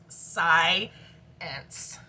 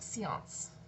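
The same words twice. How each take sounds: First: The word is said the ordinary English way. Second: The word is said with a French-like sound. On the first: The speaker calls it right. "It's pronounced science" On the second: The speaker calls it wrong. "It's kind of French sounding when I say it like that"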